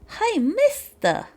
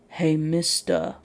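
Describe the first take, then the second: First: It is said in a put-on child's voice. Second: It is said in a grown-up voice. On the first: The speaker calls it wrong. "I'm gonna attempt a child voice here" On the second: The speaker calls it right. "So it would have been more like"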